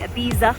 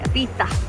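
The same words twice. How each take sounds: First: The middle consonant is a plain z sound. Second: The middle consonant is a lisped th sound. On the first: "as they say" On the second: "they have a speak with the lisp, and they say"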